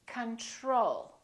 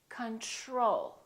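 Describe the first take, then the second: No difference in how they are said.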